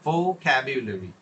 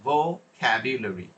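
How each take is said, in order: Both takes have the same delivery.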